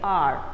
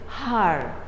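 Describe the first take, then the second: First: The word begins with a vowel, no H. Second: The word begins with an audible H sound. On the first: The speaker calls it right. "H is a silent, and so here when we speak out the word, we say R" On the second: The speaker calls it wrong. "You don't say har, do you? No"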